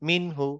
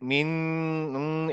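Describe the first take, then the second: First: The n is clear with no nasal hum. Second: The n is held with a nasal hum. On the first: The speaker calls it right. "কোনো রকমের গুন্না বা কোনো নাকে তোলা কিছু করব না, জাস্ট মিন হু" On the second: The speaker calls it wrong. "কোনো রকমের মিন উম, এরকম কিছু করব না"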